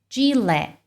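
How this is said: It is said with English pronunciation. The speaker calls it right. "no inglês o mais natural é Gillette"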